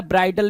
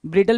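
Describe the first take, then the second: First: ब्राइडल with an "eye" vowel in the first syllable; long-i pronunciation. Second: ब्रिडल with a short i in the first syllable; short-i pronunciation. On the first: Teacher showing how some people read it, ब्राइडल with long i. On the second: Teacher giving students both readings, ब्रिडल with short i. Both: Shown as a demonstration. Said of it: "अब कुछ लोग इसको ब्राइडल भी पढ़ सकते हैं".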